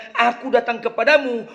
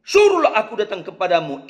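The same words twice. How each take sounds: First: "Aku" lifted and leaned on, then a falling finish; stress on aku. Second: "Suruhlah" given the weight, with a long falling line; stress on suruhlah. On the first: Preacher stressing "Aku" to his congregation. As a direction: lean on "Aku" with a light laugh. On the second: Preacher showing the congregation where Peter's emphasis falls. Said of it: "itu penekanan". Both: Shown as a demonstration.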